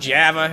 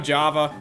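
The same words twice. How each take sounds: First: It is said in a New York-style accent. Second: It is said in a plain, ordinary accent.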